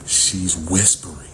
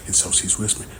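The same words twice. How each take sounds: First: Said in the usual way. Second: "whispering" said in a breathy whisper, no voice. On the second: Shown as a demonstration. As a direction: drop to a whisper on "And so she's whispering".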